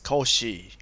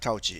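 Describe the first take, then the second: First: The name is said with a French-style pronunciation. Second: The name is said with an English-style pronunciation. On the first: The speaker calls it right. "it's Cauchy. He's a Frenchman" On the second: The speaker calls it wrong. "this is not Cauchy"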